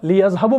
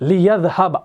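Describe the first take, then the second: First: The word ends with a short u vowel. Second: The word ends on the consonant b. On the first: The speaker calls it wrong. "लियज़हबु बनेगा? नहीं बनेगा।" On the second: The speaker calls it right. "इसको ये सुकून देगा, तो ये बनेगा लियज़हब"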